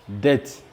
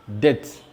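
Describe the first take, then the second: No difference in how they are said.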